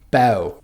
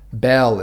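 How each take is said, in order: First: The word ends with an ow sound. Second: The word ends with an L sound.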